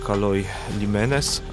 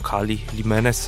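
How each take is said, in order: First: The first word ends with an 'oy' sound. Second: The first word ends with an 'ee' sound. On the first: This is the ancient form of the name. "która funkcjonowała 2000 lat temu" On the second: This is how people say it today. "jak to współcześni Grecy wymawiają"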